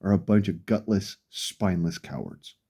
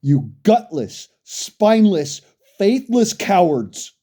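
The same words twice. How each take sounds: First: Low, much softer, muttered insult; quiet contempt. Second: Slow, heavy, spat-out insults; slow contemptuous insult. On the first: Ranting at law-abiding citizens, quiet cold contempt. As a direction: let it sink to a cold near-mutter. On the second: Ranting at gun owners, slow contemptuous insults. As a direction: drag out each insult with contempt. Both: Real, not acted.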